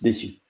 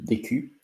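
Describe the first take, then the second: First: The middle consonant is an S sound. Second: The middle consonant is a K sound. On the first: The speaker calls it right. "you pronounce the C C D like an S" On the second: The speaker calls it wrong. "it's not décu"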